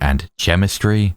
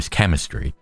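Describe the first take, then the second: First: It begins with a ch sound. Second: It begins with a k sound. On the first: The speaker calls it wrong. "It doesn't have to be like a ch noise" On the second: The speaker calls it right. "It can be like a K noise"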